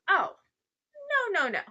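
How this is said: It is said in a shocked voice.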